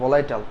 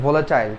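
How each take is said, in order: First: It is said like 'vo-lai-tal', ending in '-tal'. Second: It is said like 'vo-la-tile', ending in '-tile'. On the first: The speaker calls it wrong. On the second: The speaker calls it right.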